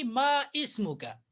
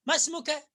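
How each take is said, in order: First: Slow मा इस्मुका with इ sounded; मा इस्मुका split in two; wrong separated pronunciation. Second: मस्मुका as one joined word; मस्मुका run together smoothly; linked pronunciation. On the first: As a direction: pronounce मा and इस्मुका apart, slowly. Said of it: "न कि". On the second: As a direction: drop the alif, say मस्मुका. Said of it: "न कि मा इस्मुका". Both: Shown as a demonstration.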